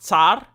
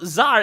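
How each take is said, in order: First: The word begins with a ts sound. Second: The word begins with a plain z sound. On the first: The speaker calls it right. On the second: The speaker calls it wrong.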